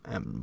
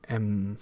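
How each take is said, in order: First: The nasal sound is voiceless. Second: The nasal sound is voiced. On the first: "but without voice" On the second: "like M"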